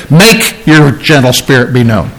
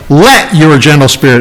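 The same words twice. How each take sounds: First: "Make" stressed as the wrong word. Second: "Let" set apart and stressed. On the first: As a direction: hit "Make" hard, then ease through the rest. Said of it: "It doesn't say". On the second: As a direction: punch the word "Let" to point it out. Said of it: "You notice it says". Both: Shown as a demonstration.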